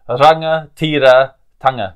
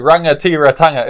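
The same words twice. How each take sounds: First: The R is said like a 'ra' sound. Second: The R is not said like a 'ra' sound. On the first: The speaker calls it right. "the R is like a ra sound" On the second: The speaker calls it wrong. "As people say"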